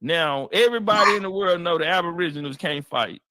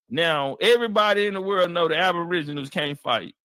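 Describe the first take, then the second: No difference in how they are said.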